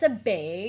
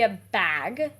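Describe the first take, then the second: First: It is said in a Canadian accent. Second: It is said in an American accent.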